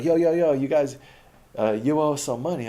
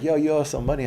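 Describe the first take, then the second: First: Put-on high, loud pushy call of a street kid; imitating a hustler kid shouting a demand. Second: Higher, louder pushy demand; mock-tough hustler asking for his money; a little aggressive. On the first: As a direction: call him out for the money. Kids demanding money, voiced. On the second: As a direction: lean in on him a bit aggressively. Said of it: "a little bit aggressive".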